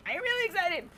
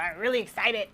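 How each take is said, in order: First: Really excited. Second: Said in the usual way. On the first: Real, not acted. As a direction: let the voice leap way up with excitement.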